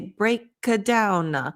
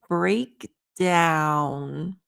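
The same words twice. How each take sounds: First: A short vowel is added after the K. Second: The K is stopped without being released. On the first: The speaker calls it wrong. "Don't add a vowel at the end" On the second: The speaker calls it right. "your throat is closed like the K sound, but you stop it from going"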